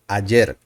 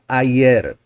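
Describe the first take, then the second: First: The middle consonant sounds like English j. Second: The middle consonant sounds like English y. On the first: The speaker calls it right. "The sound is like the J sound" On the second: The speaker calls it wrong. "not ayer"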